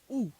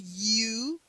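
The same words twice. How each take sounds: First: The letter is a pure 'oo' sound. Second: The letter sounds like English 'you'. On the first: The speaker calls it right. "is U. In Italian you read U" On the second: The speaker calls it wrong. "because it's no U"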